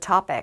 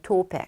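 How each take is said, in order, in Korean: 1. 첫 번째 모음은 열린 '아' 소리예요. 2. 첫 번째 모음은 둥근 '오' 소리예요. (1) "알파벳 O를 진짜 R로 안 읽고 topic 이렇게 하는 거" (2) "호주나 영국 오빠들은"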